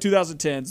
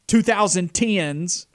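First: The word is said in a plain, neutral accent. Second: The word is said in a strong country accent.

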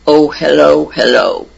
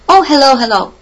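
First: It is said in a very deep bass voice. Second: It is said in an ordinary, quick voice.

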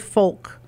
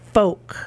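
First: The L sound is pronounced in the word. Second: The L sound is silent in the word. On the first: The speaker calls it wrong. "You don't say folk" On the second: The speaker calls it right. "You say folk"

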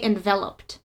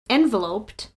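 First: The stress falls on the second syllable. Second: The stress falls on the first syllable. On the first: The speaker calls it right. "You say enveloped. ... is on the center" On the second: The speaker calls it wrong. "You don't say enveloped"

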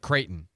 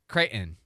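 First: The middle T sound is clearly pronounced. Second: The middle T sound is dropped. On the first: The speaker calls it right. "Instead of" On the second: The speaker calls it wrong. "Dropping the T in words"

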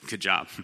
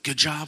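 First: It is said in a sarcastic tone. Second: It is said in a sincere tone.

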